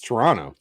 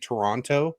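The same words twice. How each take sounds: First: The second T sound is left out. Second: Both T sounds in the word are pronounced. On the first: The speaker is a local. The speaker calls it right. "You don't pronounce the second T" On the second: The speaker is not from the city. The speaker calls it wrong. "if you were to say Toronto, people are like, "Ooh, you're not from here, are you?""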